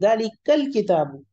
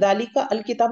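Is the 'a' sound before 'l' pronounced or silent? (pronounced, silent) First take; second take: silent; pronounced. First: The 'a' of 'al' is dropped and linked. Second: The 'a' of 'al' is pronounced separately. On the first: The speaker calls it right. "मैं क्या पढ़ती हूँ" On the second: The speaker calls it wrong. "नहीं पढ़ती"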